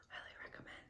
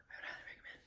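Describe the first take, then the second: First: Whispered again. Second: Whispered recommend. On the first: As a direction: hush highly recommend. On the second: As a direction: breathe highly recommend as a secret. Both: Real, not acted. To viewers, whispering the recommendation. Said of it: "I can't even hear you".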